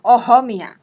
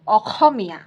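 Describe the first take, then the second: First: The consonant after the first vowel is a soft h. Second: The consonant after the first vowel is a rough kh. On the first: "इन ह को ह pronounce करेंगे" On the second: "दंत्य ह ऐसे ख sound निकालते हैं"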